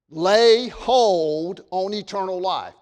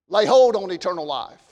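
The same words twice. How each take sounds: First: Slow, weighty stress on every word of Lay hold on eternal life; emphasis. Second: Said in the usual way. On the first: Shown as a demonstration. Pastor driving home his point to the congregation, slow and emphatic. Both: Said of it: "That is my emphasis".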